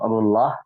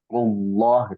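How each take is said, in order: First: The L sound is light and thin. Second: The L sound is heavy and deep. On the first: The speaker calls it wrong. "Bukan rullah" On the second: The speaker calls it right. "Bacanya tafkhim, maka harus tebal"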